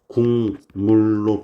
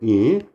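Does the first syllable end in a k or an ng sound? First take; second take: ng; k. First: The first syllable ends in an ng sound. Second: The first syllable ends in a k sound.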